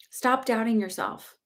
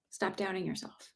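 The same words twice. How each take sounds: First: Slow, firm, every word pressed; slow deliberate insistence; firm urging. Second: Much softer, almost to herself; hushed echo of the urging; soft repeat. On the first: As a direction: push her to stop doubting. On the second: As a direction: let it land quietly the second time. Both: Shown as a demonstration.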